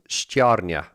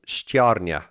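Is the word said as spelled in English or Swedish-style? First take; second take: English; English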